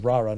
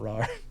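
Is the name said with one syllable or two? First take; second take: two; one. First: The name is said with two syllables. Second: The name is said with one syllable. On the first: The speaker calls it right. "That's why I think it's Rara" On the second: The speaker calls it wrong. "not Rar"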